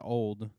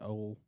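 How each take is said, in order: First: The word ends with a clear d sound. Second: The word ends without any d sound. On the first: "I don't say old" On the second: "I just say old"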